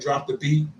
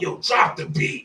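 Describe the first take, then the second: First: It is said in his normal voice. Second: It imitates the Wild 'N Out host's voice.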